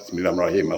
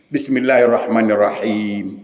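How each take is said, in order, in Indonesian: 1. Dibaca cepat, vokal panjangnya dipendekkan. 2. Dibaca dengan vokal panjangnya dipanjangkan. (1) "Nak ke mana engkau ni?" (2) "jangan langgar tajwid"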